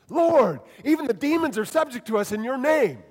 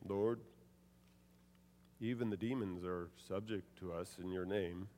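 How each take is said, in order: First: It is said in an excited, lively tone. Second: It is said in a calm, flat tone. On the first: The followers were thrilled by their success. The speaker calls it right. "They were excited" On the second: This is not how the followers would have reacted. The speaker calls it wrong. "I can't imagine them saying"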